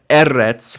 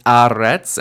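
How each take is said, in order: First: Eretz starting with a punched "eh"; initial E vowel. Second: Aretz starting with a stressed "ah"; initial A vowel. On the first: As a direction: say "EH-retz". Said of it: "usually we would expect eretz". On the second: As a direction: say "AH-retz". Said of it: "Here it's aretz". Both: Shown as a demonstration.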